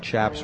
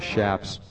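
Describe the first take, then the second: First: The word begins with a ch sound. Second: The word begins with a sh sound. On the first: The speaker calls it wrong. "we pronounced chaps wrong" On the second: The speaker calls it right. "They're shaps"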